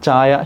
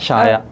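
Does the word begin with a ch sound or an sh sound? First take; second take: ch; sh. First: The word begins with a ch sound. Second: The word begins with an sh sound. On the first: This is the standard form. "ചാ" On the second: This is the local dialect form. "ഷ"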